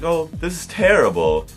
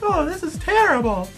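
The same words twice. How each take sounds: First: It is said in a plain, normal voice. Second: It is said in a Minnie Mouse voice.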